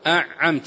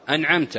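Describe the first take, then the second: First: The n sound is merged into the ain. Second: The n sound is clearly pronounced before the ain. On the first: The speaker calls it wrong. "هنا أدغم النون في العين وهي لا تدغم" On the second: The speaker calls it right. "في إظهار أنعمت"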